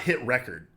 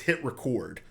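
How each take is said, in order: First: Record is pronounced like the noun form. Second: Record is pronounced like the verb form. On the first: The speaker calls it wrong. "It's not hit record" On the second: The speaker calls it right. "it's hit record, like record a video"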